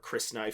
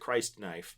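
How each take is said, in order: First: The first syllable sounds like Chris. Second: The first syllable sounds like Christ. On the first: "or Chris knife, if you want to pronounce it that way" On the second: "really close to Christ knife"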